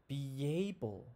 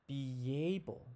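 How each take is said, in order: First: A y sound links the two words together. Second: The same.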